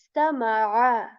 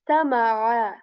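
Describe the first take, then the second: No difference in how they are said.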